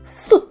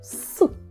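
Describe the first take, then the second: First: The sound is said with more force. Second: The sound is said plainly, without extra force. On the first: "А якщо ми говоримо цей звук сильніше" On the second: "Говоримо його дуже просто"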